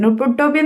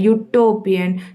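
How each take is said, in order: First: The word begins with a plain oo vowel. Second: The word begins with a y glide, like you. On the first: The speaker calls it wrong. "ഉട്ടോപ്യൻ എന്ന് വെച്ചാൽ അപ്പോൾ ഉത്തരം തെറ്റിയിട്ടാ" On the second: The speaker calls it right. "ശരിക്കും യുട്ടോപ്യൻ എന്നാണ്. അപ്പോൾ യു ആണ് തുടക്കത്തിൽ"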